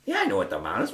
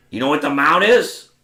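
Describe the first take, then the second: First: Said in the usual way. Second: Loud, higher-pitched testing question; impatient challenge. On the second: Retold or imitated. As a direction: imitate a gruff coach challenging a student. Tony challenges him in retold exchange.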